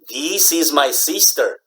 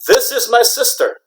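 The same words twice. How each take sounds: First: The i vowels are drawn out long. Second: The i vowels are short. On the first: The speaker calls it wrong. "That's not good pronunciation" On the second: The speaker calls it right. "Americans would say"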